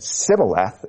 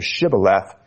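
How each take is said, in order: First: "sibboleth" begun with a plain S, no H sound. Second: "shibboleth" begun with a hushing SH sound. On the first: Preacher showing the failed dialect test, "sibboleth" with a plain S. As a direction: say "sibboleth" with S in place of SH. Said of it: "could not pronounce it correctly but said". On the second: Preacher showing the correct dialect test word, "shibboleth" with SH. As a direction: say "shibboleth" with SH, not a plain S. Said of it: "instead of". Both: Shown as a demonstration.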